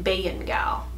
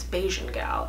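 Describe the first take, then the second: First: The middle consonant is a Y sound. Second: The middle consonant is a J sound. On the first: It is read the Serbian way. "my boyfriend is Serbian and their J's are Y's, so it'd be like Bayan Gal" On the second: It is read the Caribbean way. "if you're Caribbean, it's Bajan Gal"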